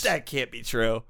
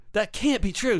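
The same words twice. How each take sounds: First: Said in the usual way. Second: That can't be true, pitched high in protest. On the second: Acted. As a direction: rise up in disbelief.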